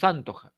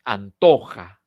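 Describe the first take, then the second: First: "antoja" as AN-toja, stress up front; wrong first-syllable stress. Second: Slow "antoja", TO punched louder; correct stress on TO. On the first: Teacher showing what is wrong, first-syllable stress on "antoja". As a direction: stress the AN of "antoja", leaving TO weak. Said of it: "no es antoja". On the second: Teacher correcting the misreading, middle-syllable stress on "antoja". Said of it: "es en to". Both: Shown as a demonstration.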